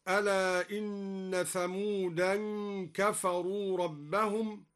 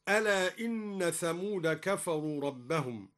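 First: Thamud is said with an added '-an' ending. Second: Thamud is said plain, without an added nasal ending. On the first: The name is treated as declinable, meaning the tribe. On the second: The name is treated as a name that cannot take nunation.

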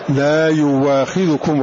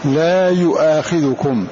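First: The second word has a w sound after 'yu'. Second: The second word has a glottal stop after 'yu'. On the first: "فيبدلها واوا" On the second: "فهذه الهمزة هنا وقعت فاء من الفعل مفتوحة إثر ضم"

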